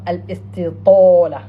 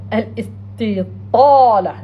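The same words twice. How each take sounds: First: "Al-Istitola" with a rounded o vowel; mispronunciation. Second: "Al-Istitala" drawn out slowly with a long heavy a; slow model "Al-Istitala", stretching the ta into a long a; correct pronunciation. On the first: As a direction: say "Al-Istitola" slowly, rounding the long a into o. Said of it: "not Al-Istitola". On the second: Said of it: "Right pronunciation". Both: Shown as a demonstration.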